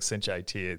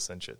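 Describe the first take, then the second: First: The ending is spoken as two separate letters. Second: The ending is spoken as the single word it. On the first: The speaker calls it right. "instead of saying Cinch IT" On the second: The speaker calls it wrong. "everybody says Cinch it"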